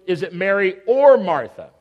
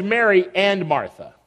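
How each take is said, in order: First: "or" stressed as a choice between two. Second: "and" stressed to join the two names. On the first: Preacher poses the challenge to listeners, stress on "or". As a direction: punch the word "or" between the names. Contrasts and with or. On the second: Preacher sets up the story of the sisters, stress on "and". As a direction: lean on the word "and" in Mary and Martha. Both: Shown as a demonstration.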